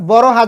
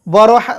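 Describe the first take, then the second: No difference in how they are said.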